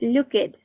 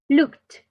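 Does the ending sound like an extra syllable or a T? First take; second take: extra syllable; T. First: The ending is an extra 'id' syllable. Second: The ending is a short T sound. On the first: The speaker calls it wrong. "We don't say looked, no" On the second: The speaker calls it right. "like a T at the end"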